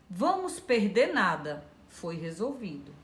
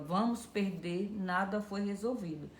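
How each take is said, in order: First: There is a pause after nada. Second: There is a pause after perder.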